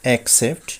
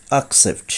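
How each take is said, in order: First: অ্যাকসেপ্ট opened with "ek"; common mispronunciation. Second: অ্যাকসেপ্ট opened with "ak"; corrected pronunciation. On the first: Teacher showing the common way, অ্যাকসেপ্ট starting "ek". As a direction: say অ্যাকসেপ্ট as "ek-sept". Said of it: "আমরা বলে থাকি". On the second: Teacher correcting learners, অ্যাকসেপ্ট starting "ak". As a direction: say অ্যাকসেপ্ট as "ak-sept". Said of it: "সঠিক উচ্চারণ হবে". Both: Shown as a demonstration.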